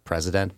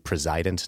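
First: The stress is on the first syllable. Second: The stress is on the second syllable. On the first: The office is elevated beyond its proper importance. The speaker calls it wrong. "not president" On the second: The office holder presides over the executive branch. The speaker calls it right. "it should be president"

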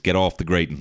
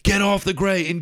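First: A firm command at moderate loudness. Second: A firm command at greater loudness. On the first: "I'm giving you my grown-up voice" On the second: "Some other parent came along with a louder voice"

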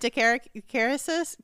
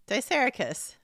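First: The first syllable sounds like "dick". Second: The first syllable sounds like "dice". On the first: "Why do you keep saying dick?" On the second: "You don't think it's dice?"

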